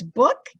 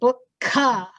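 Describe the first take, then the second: First: The word ends cleanly on the final consonant. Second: An extra weak vowel follows the final consonant. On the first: The speaker calls it right. "So if it's book" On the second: The speaker calls it wrong. "it's not book-ka"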